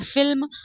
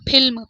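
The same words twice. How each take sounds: First: The word begins with an 'f' sound. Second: The word begins with an aspirated 'ph' sound. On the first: The speaker calls it right. "नुक्ता के बाद" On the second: The speaker calls it wrong. "बिना नुक्ता के पढ़ेंगे ... एकदम गलत है"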